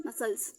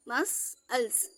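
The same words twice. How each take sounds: First: Said in the usual way. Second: मसल्स very slowly, split as मस, अल्स; broken into syllables. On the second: Shown as a demonstration. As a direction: sound out मसल्स in two separate pieces. (मसल्स को धीरे-धीरे तोड़ कर) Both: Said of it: "छोटे छोटे sound आप तोड़ के पढ़ेंगे".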